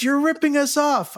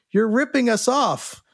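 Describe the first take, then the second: First: Repeated accusation pitched much higher; the guy pressing his point, whiny and high; hammed-up insistent complaint, higher; insistent drunk patron. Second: Quoted accusation, a bit higher; retelling a pushy bar guy's complaint, lightly voiced; mild mock accusation; accusing drunk patron. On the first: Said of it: "He goes".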